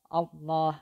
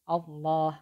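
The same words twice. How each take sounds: No difference in how they are said.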